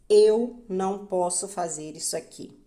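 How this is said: The stress is on the word eu. It is a statement about identity. "Quando o eu é enfatizado"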